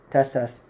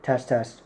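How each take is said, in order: Both takes have the same delivery.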